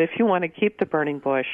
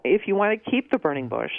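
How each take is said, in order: First: Said in the usual way. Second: Sarcastic lilt on the condition. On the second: Real, not acted. Garden expert needling a burning bush owner, sarcastic. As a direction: say it as if who would want to. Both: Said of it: "I'm being sarcastic here".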